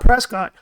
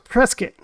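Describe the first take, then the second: First: It is said the way outsiders say it. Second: It is said the way locals say it. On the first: A visitor would say it this way. "you call it Prescott" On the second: Residents say it this way. "a local will correct you and say it's pronounced Prescott"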